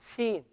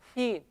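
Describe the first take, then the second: Both takes have the same delivery.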